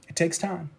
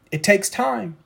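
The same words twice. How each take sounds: First: Quiet "It takes time."; soft echo. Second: Said in the usual way. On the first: Acted. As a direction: let it trail away softly. Softer repeat.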